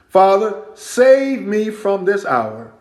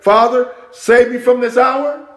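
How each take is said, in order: First: It is read as a statement, falling. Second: It is read as a question, rising. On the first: It is a plain statement. The speaker calls it wrong. "I didn't read that the right intonation" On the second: It asks whether to pray this. The speaker calls it right. "Question mark"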